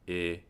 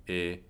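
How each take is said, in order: Both takes have the same delivery.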